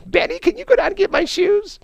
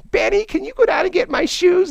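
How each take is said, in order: First: Mocking falsetto plea. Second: High falsetto plea. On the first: Officers mocking Benny with the secretary's line, high falsetto. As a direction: rib him with a squeaky lady voice. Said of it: "they just always say that to him". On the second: Retold or imitated. Drunk secretary asking Benny for her shoes, high falsetto. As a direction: beg for the shoes in a squeaky lady voice.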